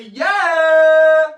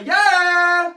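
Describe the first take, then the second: First: A much louder, higher "Yeah!" than the first; bigger cheer. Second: A high, loud sung "Yeah!" held out; sung cheer. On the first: Showing viewers how loud to cheer, big shout. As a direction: belt the cheer out full. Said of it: "can't hear that". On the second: Leading young viewers in the cheer, high sung shout. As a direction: lead the crowd with a big sung yeah. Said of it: "I wanna hear you say". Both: Shown as a demonstration.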